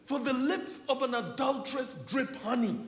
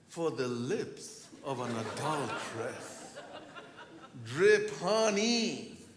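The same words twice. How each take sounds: First: It is read in a plain, ordinary voice. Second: It is read in a sultry, seductive voice. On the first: The speaker calls it wrong. "I think I'm using the wrong voice" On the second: The speaker calls it right. "So I need to read it with the right voice"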